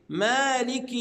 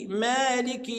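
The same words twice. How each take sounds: The two takes are said the same way.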